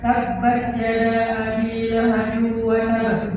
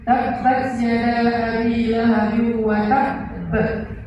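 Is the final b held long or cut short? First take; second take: short; held long. First: The final b is cut short, not held. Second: The final b is held long and pressed. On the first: The speaker calls it wrong. "Jadi bacanya bukan" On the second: The speaker calls it right. "Harus ditahan dulu"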